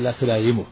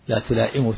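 First: The word is said with the glottal stop softened. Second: The word is said with a full glottal stop. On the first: This is the form eased by frequent use. "ثم سهل لكثرة استعماله" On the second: This is the original form of the word. "وأصله بالهمزة"

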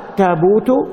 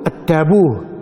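First: The word ends with a t sound. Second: The word ends with an h sound. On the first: This is one tribe's way of saying it. "فالقرشيون قالوا التابوت بالتاء" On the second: This is another person's way of saying it. "التابوت بالهاء، فتقول التابوه"

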